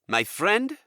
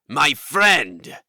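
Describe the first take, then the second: First: It is said at normal, softer volume. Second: It is said louder, more forcefully.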